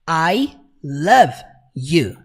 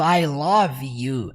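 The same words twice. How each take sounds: First: Love is said with a native English pronunciation. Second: Love is said with a Brazilian Portuguese pronunciation. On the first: The speaker calls it right. "ele fala como?" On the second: The speaker calls it wrong. "igual a gente fala aqui no Brasil"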